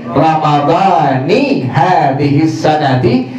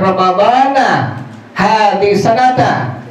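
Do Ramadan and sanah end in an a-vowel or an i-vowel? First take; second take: i-vowel; a-vowel. First: Ramadan and sanah end with an i vowel. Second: Ramadan and sanah end with an a vowel. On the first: Ramadan is linked to the following words. The speaker calls it right. "maka yang dibaca pengucapan niatnya adalah" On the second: Ramadan is not linked to the following words. The speaker calls it wrong. "Jangan pernah melimpahkan kesalahan antum"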